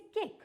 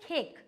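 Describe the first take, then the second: First: It is said in an Indian accent. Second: It is said in a UK-US accent. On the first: "we से केक" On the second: "we don't say खेक"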